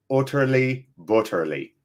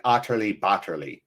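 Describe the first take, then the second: First: "Utterly butterly" as "ootterly bootterly"; "Utterly butterly" with northern English u; "oo" vowel. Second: "utterly butterly" as "ahtterly bahtterly"; lower-pitched "utterly butterly" with ah vowels. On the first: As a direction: round the first vowels of "Utterly butterly" to a short oo. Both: Shown as a demonstration. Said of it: "Is it more an oo or ah".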